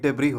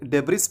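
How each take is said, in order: First: The final s is silent. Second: The final s is pronounced. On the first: The speaker calls it right. "सही उच्चारण डेब्रिस नहीं बल्कि डेब्री होता है" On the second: The speaker calls it wrong. "इसे डेब्रिस पढ़ना गलत होगा"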